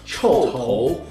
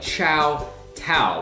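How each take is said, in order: First: The name is said with a Chinese pronunciation. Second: The name is said with an English-style reading. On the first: The speaker calls it right. "in Chinese. It's pronounced Chou Tou" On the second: The speaker calls it wrong. "It looks like Chow Tao"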